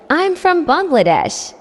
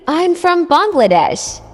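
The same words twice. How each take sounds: The two takes are said the same way.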